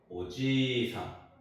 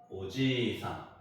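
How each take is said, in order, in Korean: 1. 지 음절은 자연스럽게 길게 늘어납니다. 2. 지 음절은 자연스럽게 길게 늘어납니다.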